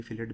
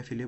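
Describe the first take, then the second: First: फिलेट said with its final T; T pronounced. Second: फिले said with no T at the end; silent T. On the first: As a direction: let the T be heard ending फिलेट. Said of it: "फिलेट भी बोल रहा हूँ". (फिलेट, आख़िरी टी के साथ) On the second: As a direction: drop the final T in फिले. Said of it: "मैं फिले बोलता हूँ". (फिले, आख़िरी टी के बिना) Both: Shown as a demonstration.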